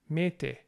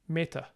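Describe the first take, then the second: First: The final vowel is a full vowel. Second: The final vowel is reduced to a schwa. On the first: The speaker calls it right. "So it's mete" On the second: The speaker calls it wrong. "rather than meta"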